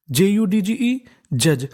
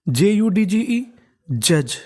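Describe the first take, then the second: No difference in how they are said.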